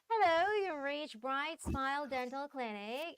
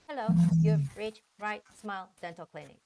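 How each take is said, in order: First: The words flow together smoothly without breaks. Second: The words are separated with choppy breaks. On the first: The speaker calls it right. "it's gotta be like all linked" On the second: The speaker calls it wrong.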